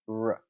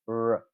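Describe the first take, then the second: Both takes have the same delivery.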